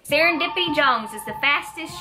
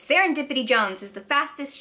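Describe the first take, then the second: First: It is read in a put-on southern accent. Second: It is read in a plain, unaccented voice.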